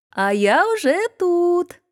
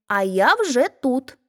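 First: Drawn out, much higher, slow call across the field. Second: Hedgehog shows his wife the call, a little higher; mock call. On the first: Hedgehog wife calls to the arriving hare, high and drawn out. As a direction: sing out triumphantly with stress on я. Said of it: "кричить йому назустріч". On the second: Hedgehog teaches his wife what to call, in a mock call. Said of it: "та й крикни". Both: A narrator's reading.

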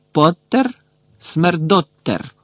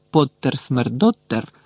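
First: Slow, drawn-out mocking chant, high on Поттер; jeering slogan. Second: Said in the usual way. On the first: A narrator's reading. Badge slogan flashed at Harry, jeering. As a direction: announce Поттер high, then drag out Смердоттер.

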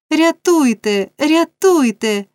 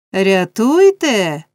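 First: High, drawn-out desperate cry; crying for help. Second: Loud, very drawn-out mimicry; mocking echo. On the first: Oliver struggling free, crying for rescue. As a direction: call out high, long falling vowels. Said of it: "кричав Олівер". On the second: Man parroting the boy's plea, mocking echo. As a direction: throw the cry back, stretched and louder. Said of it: "повторив чолов'яга". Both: A narrator's reading.

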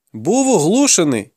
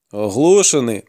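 First: Put-on high-pitched, defensive boy; boy's excuse. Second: Sceptical echo. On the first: Boy's excuse, echoed by his interrogator. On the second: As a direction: throw "Оглушений" back in doubt. Interrogator echoes the excuse in doubt. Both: A narrator's reading.

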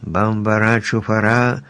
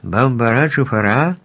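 First: Measured incantation of "Бамбара, чуфара"; reciting magic words. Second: Puzzled questioning repeat, rising on each word; surprised echo. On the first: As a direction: read out a spell, word by word. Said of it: "Еллі почала вимовляти чарівні слова". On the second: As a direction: ask it back in mild surprise. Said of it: "здивовано перепитав Страшило". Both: A narrator's reading.

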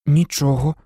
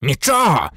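First: Said in the usual way. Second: «Нічого!» spat back, a touch louder, falling; spluttering anger. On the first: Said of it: "чесно відповів Гаррі". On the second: A narrator's reading. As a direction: throw «Нічого!» back at the boy with scorn. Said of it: "бризнув слиною Філч".

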